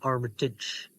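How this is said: The name is pronounced the American way. "it's more American"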